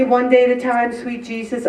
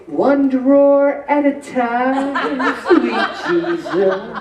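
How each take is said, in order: First: Said in the usual way. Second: Laughing through a slow punchline. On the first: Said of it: "They always say". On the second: Retold or imitated. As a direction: draw it out slowly with a laugh. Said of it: "I say".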